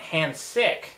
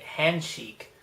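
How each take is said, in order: First: The second syllable sounds like 'sick'. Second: The second syllable sounds like 'sheek'. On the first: This is how an English reader would misread the spelling. The speaker calls it wrong. "I'd call it hand sick. Like sick" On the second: This is how the name is meant to be said. The speaker calls it right. "calling it handshake"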